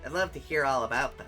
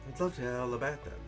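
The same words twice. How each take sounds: First: It is said in the speaker's normal accent. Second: It is said in a British accent.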